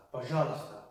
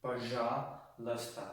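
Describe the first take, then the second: First: Said in the usual way. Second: "Пожалуйста" slowly, split in two with a pause; broken-down pronunciation. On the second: Shown as a demonstration. Teacher showing learners how to say please, slowly in parts. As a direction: draw out the start of "Пожалуйста", pause, then finish it. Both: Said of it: "you would say".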